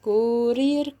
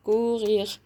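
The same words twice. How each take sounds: First: "كورير" with front trilled r's; rolled R. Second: "كوغيغ" with throaty r's; guttural French R. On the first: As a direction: say "كورير" with an Arabic ر. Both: Shown as a demonstration. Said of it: "كورير أو كوغيغ".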